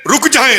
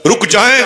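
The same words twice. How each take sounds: First: Much higher, stretched second plea; desperate cry. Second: High, raised call to stop the caravan; pleading call. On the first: Boy calling after the caravan a second time, desperate high cry. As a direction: call after them, voice climbing. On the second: Orphan begging the departing caravan to wait, high pleading call. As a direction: cry out for them to wait. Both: Retold or imitated.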